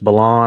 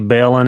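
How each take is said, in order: First: The last syllable sounds like 'lon'. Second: The last syllable sounds like 'lin'. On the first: This is the actual pronunciation of the name. The speaker calls it right. "it's Bellon" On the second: This is how the speaker usually says it. The speaker calls it wrong. "I say Bellin"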